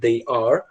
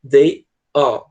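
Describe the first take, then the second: First: The are is said in a plain American way. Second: The are has a British a mixed with o.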